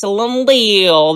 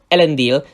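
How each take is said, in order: First: The name is said in the show's pronunciation. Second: The name is said in the book's pronunciation. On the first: It names the television show's character. "because they are Amazon's characters" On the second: It names the original book character. "the correct pronunciations"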